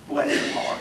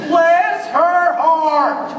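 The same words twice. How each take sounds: First: Whispered Bless her heart; a hushed heart blessing. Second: A slow, lofty Bless her heart; drawn-out blessing. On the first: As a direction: breathe it after the pause. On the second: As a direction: stretch out Bless with weight. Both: Shown as a demonstration. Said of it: "put that little pause in there".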